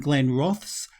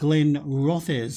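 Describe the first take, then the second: First: The second word has one syllable. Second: The second word has two syllables. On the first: The speaker calls it wrong. "I've been pronouncing the name incorrectly" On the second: The speaker calls it right. "I should have been saying"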